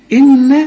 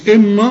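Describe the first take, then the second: First: إن with a thin, light "na". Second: إن with a dark, thickened "na"; wrong heavy N. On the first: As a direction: keep the N of إن light, doubled. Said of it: "النون مرققة". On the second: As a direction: mispronounce إن with a heavy N. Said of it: "شوف مش إن". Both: Shown as a demonstration.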